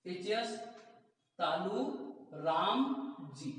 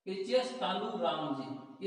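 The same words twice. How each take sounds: First: Word by word. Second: HS तालू राम जी said slowly, each word drawn out; slow chant of the sutra; slow recitation. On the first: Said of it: "teacher breaks sutra into words". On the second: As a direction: drill it slowly for memorising. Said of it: "repeats sutra slowly". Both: Shown as a demonstration.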